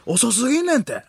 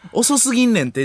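First: "遅すぎんねんて" pitched high, then dropping; Junior's intonation. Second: "遅すぎんねんて" with the ordinary, unimitated tune; wrong intonation. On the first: Showing the comedian's tune, high arched "遅すぎんねんて". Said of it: "下がるんですよね". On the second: Showing how he doesn't say it, plainer "遅すぎんねんて". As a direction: say "遅すぎんねんて" without the comedian's high arch. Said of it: "じゃないんですよね". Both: Shown as a demonstration.

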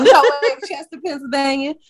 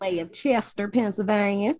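First: Higher, louder repeat of the mock accent; put-on Chester accent, amused. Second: Lightly put-on accent for Chester, Pennsylvania. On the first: Co-host asked about Chester talk, laughing mock accent. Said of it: "why I did that accent again". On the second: Introducing herself from Chester, put-on accent. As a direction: slip into a mock regional accent. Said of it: "why I did that accent".

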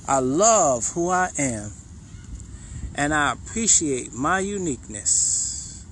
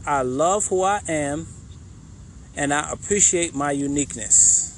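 First: Slow heartfelt affirmation. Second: Said in the usual way. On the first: Shown as a demonstration. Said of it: "I want you to say it". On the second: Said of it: "the next one is".

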